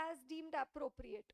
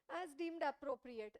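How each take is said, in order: First: Said in the usual way. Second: "As deemed appropriate" said slowly, stress on "deemed"; slow emphatic quote. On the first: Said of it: "What does the standard say?". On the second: Shown as a demonstration. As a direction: lean on "deemed", spell the phrase out slowly. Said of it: "That is what is told by".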